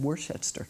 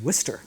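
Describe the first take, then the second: First: The name is sounded out as it is spelled. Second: The name is said in a shortened form. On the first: The speaker calls it wrong. "I said Worcester. That's what it sounded like" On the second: The speaker calls it right. "but sure. It's Worcester"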